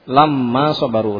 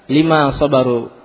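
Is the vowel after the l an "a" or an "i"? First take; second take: a; i. First: Short a after l, with a doubled m. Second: Short i after l, with a single m. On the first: It means when they were patient. "lam bi fathah, mim di tasydid" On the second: It means because of their patience. "bi kasril lam wa takhfifi al-mim"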